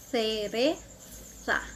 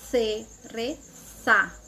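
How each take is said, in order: First: The z is said as a th sound. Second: The same.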